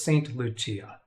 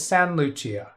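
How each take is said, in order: First: The T at the end of Saint is pronounced. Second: The T at the end of Saint is dropped. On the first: The speaker calls it wrong. "I don't think it's Saint Lucia" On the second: The speaker calls it right. "I don't think you're supposed to pronounce the T"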